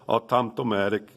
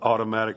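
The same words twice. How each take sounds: First: It is said with a Czech-like accent. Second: It is said in a plain, ordinary accent. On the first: "he would kind of say it like a Czech person would say it" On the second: "instead of saying like uh"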